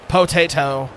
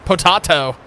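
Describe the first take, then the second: First: Said in the usual way. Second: Potato said "po-TAH-to" with a broad ah; Potato with the middle vowel as "ah"; potahto. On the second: Shown as a demonstration. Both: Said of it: "Maybe I do say it potato".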